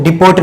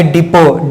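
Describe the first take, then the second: First: "डिपोट" closing on a hard t; "डिपोट" with the final t sounded; wrong pronunciation. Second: "डिपो" ending on an open o; "डिपो" with the final t dropped; silent t. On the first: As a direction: say "डिपोट" as di-POT. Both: Shown as a demonstration. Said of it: "डिपोट नहीं".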